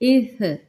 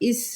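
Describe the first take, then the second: First: The final f sound is said softly. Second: The final f sound is said hard. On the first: The speaker calls it right. "नरमी के साथ" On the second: The speaker calls it wrong. "इसको ये नहीं करेंगे इस इस नहीं"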